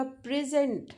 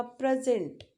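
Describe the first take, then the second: First: "प्रेजेंट" with weight on the opening प्रे; teacher's PRE-sent demo of "प्रेजेंट"; stress on first syllable. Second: "प्रेजेंट" with weight on the closing जेंट; teacher's pre-SENT demo of "प्रेजेंट"; stress on second syllable. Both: Shown as a demonstration. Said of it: "stress words category को ही change कर देता है".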